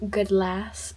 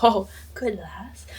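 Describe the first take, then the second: First: Said in the usual way. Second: Whispered, slow Scottish lilt on good lass; hushed Welsh-Scottish good lass; Scottish accent. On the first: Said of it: "he says". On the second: Retold or imitated. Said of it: "like, a Welsh Scottish accent".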